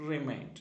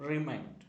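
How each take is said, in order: Both takes have the same delivery.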